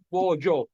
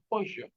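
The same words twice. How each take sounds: First: The middle consonant is a y sound. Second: The middle consonant is an ly sound. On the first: This is the form we use here. "Pollo con Y" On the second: This is the form other regions use. "Nosotros no decimos pollo"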